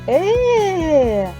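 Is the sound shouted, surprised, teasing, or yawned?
surprised. The sound is said with clear surprise. Someone did not expect something. "А цей дядько, він здивувався. Ось так"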